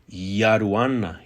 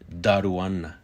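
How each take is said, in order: First: The word begins with a Y sound. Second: The word begins with a D sound. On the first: "pronounced with a Y" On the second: "pronounced Yaruana with a D sound"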